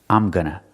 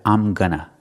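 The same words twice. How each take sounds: No difference in how they are said.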